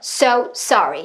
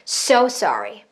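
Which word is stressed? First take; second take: both equally; so. First: Both words get equal force, sounding choppy. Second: The word so gets more force. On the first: The speaker calls it wrong. "똑같은 힘으로 뱉으면 끊어져요" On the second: The speaker calls it right. "so에다가 조금 더 뱉어볼까요?"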